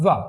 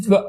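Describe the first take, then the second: First: وا with upper teeth on lower lip. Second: وا with rounded lips, teeth not touching; lips only. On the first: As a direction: model وا as a V, teeth touching the lip. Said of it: "اب اس میں کہتے ہیں فا". (وا، اوپر کے دانت نچلے ہونٹ پر) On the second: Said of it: "اس میں اور اس میں فرق یہ ہے". (وا، صرف ہونٹوں سے، دانت نہیں) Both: Shown as a demonstration.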